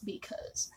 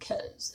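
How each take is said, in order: First: Both syllables are said in full. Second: The first syllable is dropped, leaving one syllable. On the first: The speaker calls it right. "because is the actual correct pronunciation" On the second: The speaker calls it wrong. "It's not cause"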